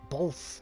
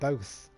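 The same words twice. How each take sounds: First: An L sound comes before the final th. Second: No L sound comes before the final th. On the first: This is how some Americans say it. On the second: This is the usual pronunciation.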